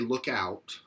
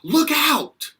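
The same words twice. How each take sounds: First: It is said in a casual, suggesting tone. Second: It is said in an urgent, warning tone. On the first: Keep an eye open for something. "a suggestion" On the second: There is danger. "that means, oh, there's danger, like cuidado"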